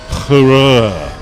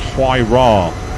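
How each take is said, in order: First: It sounds like the word hurrah. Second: It sounds like why-ra. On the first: This is how people first assumed it was said. The speaker calls it wrong. "as it was first thought it was pronounced" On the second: This is how the name is actually said. The speaker calls it right. "It's actually pronounced Huayra"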